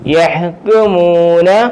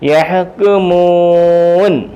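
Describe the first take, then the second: First: The word ends with a short final vowel. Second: The word ends on a bare n sound. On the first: The reading continues without stopping. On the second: The reading stops at this word.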